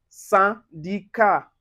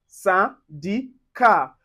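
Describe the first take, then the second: First: Syndicat with nasal first vowel; French syndicat. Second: Syndicat slowly, nasal first vowel. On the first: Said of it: "find it in word like syndicat". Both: Shown as a demonstration.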